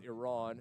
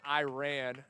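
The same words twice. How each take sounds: First: It is said the usual way for the country. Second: It is said the local West Texas way. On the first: It names the country in the Middle East. "not to be confused with Iran, that country in the Middle East" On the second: It names the small town in West Texas. "Got Iran"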